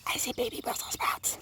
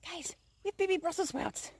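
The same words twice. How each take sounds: First: Whispering. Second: Excited. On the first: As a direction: breathe the whole line with no voice, hushed. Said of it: "Shh, don't wake them up". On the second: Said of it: "Why is she freaking out?". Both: Real, not acted.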